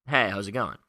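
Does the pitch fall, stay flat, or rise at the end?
flat. The pitch stays flat throughout. The speaker is neither building nor breaking rapport. "Neutral to rapport, it's just flat"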